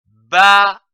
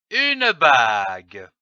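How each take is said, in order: First: "bague" split into ba and gue, loud first beat; syllable by syllable. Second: Said in the usual way. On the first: Shown as a demonstration. Teacher joining two syllables for beginning readers, "bague" broken into ba - gue. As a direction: say "bague" as separate ba, then gue, final e sounded. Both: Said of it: "L'association de ces deux syllabes".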